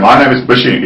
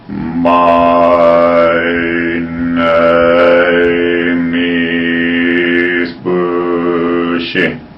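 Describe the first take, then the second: First: It is said at a normal speed. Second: It is said very slowly and drawn out.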